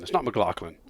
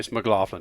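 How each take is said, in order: First: The name is said with a non-American pronunciation. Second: The name is said with an American pronunciation. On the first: The speaker calls it wrong. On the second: The speaker calls it right. "If you're from America, it's McLaughlin"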